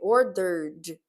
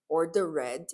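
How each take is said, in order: First: The ending is said like 'id'. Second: The ending is said like Portuguese 'ed'. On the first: The speaker calls it right. "É o som de I D" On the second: The speaker calls it wrong. "eu não vou falar ordered, ordered, esse som de E D, português, poxa vida, não cabe aqui"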